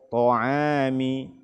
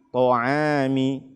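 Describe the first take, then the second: The two takes are said the same way.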